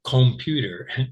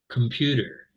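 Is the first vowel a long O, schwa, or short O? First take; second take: long O; schwa. First: The first vowel is a long O sound. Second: The first vowel is a reduced schwa sound. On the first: "So did I say long O?" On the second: "I said computer"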